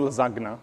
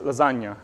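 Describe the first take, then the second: First: The gn has a hard g sound. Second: The gn has a palatal ny sound. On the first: The speaker calls it wrong. "It's not G, it's not lasagna" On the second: The speaker calls it right. "the G becomes, you know, it gets palatized"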